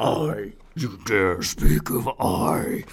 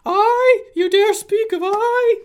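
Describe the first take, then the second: First: Low, slow, breathy ghost whisper; deep ghostly voice. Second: High, loud wailing ghost; ghostly voice. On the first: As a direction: drag it out like a dark spirit. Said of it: "I was doing a ghostly voice". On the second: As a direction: wail it like a mocking spirit. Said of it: "the ghostly voice of Ingester". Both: Acted.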